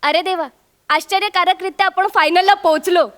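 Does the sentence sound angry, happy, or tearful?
happy. It is said in a happy, joyful tone. The speaker is overjoyed at reaching the final. "माझी खुशी जाणवते"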